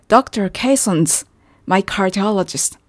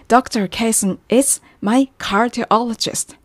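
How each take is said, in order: First: The word 'is' is reduced to an s sound. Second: The word 'is' is said fully and clearly.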